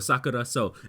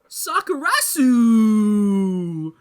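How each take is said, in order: First: The word ends with a long 'so' sound. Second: The word ends with a short 'su' sound. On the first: The speaker calls it right. "they say Sakura so" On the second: The speaker calls it wrong. "What did Matt say?"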